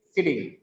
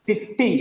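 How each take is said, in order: First: "sitting" with one light t; corrected single t. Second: Higher "sitting" split as sit-ting; wrong double t. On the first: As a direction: say "sitting" smoothly, one consonant. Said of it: "it carries only one sound". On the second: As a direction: hit both t's in "sitting". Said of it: "not the double sound". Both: Shown as a demonstration.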